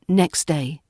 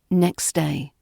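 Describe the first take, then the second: First: The T at the end of next is dropped. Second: The T at the end of next is dropped.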